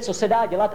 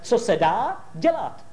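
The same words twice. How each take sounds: First: The phrase is said in one unbroken stretch. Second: The phrase is split with a pause after 'dá'. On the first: Nothing can be done about it. The speaker calls it wrong. "Neříkejte" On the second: Do whatever can be done. The speaker calls it right. "A on to vždycky rozdělil, tu větičku"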